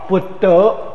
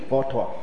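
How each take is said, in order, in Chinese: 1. 这个词开头是B音。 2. 这个词开头是F音。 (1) "所以我们佛陀的闽南话就是拜布佛，布德" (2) "如果是用普通话、国语的普通话、北京话来念呢，佛陀是F T"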